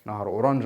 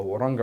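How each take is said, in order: First: "اورنج" with a soft zh at the end; soft-j pronunciation. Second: "اورنج" with a hard g at the end; hard-g pronunciation. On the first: Teacher comparing how people name the river, "اورنج" with soft zh. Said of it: "في ناس بتقولها اورنج". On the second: Teacher comparing how people name the river, "اورنج" with hard g. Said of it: "وفي ناس بتقولها اورنج". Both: Shown as a demonstration.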